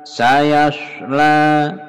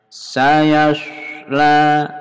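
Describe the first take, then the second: No difference in how they are said.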